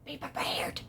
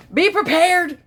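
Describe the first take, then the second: First: Hushed dramatic whisper; very soft, voiceless repeat; whispered warning. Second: High, loud proclamation; punched, loud warning; emphatic warning. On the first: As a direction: whisper it like an ominous echo. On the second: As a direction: announce it dramatically, pitched way up. Dramatic warning after pause. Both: Pretend.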